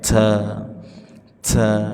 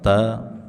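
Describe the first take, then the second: First: The t is released with a strong puff of air. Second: The t is released plainly without extra air. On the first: The speaker calls it wrong. "jangan berlebihan pada anginnya. Ta ta tidak" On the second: The speaker calls it right. "cukup tempelkan ujung lidah di gusi maka sudah tepat"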